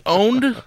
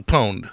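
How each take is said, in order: First: Owned said slowly as OHND; plain owned. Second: Pwned said as POHND, a P before owned. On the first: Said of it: "like, say, owned". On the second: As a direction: put a P sound in front of pwned, POHND. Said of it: "with a P, pwned". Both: Shown as a demonstration.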